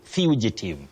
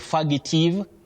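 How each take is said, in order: First: The word begins with the sound 'few'. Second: The word does not begin with 'few'. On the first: The speaker calls it right. "At the onset, that is at the beginning, you say few" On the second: The speaker calls it wrong. "many people innocently say fugitive"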